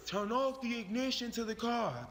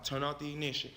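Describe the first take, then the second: First: Officer's order pitched well above the narration; police officer command. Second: Said in the usual way. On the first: Acted. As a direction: call out a firm police instruction. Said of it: "one of the officers said".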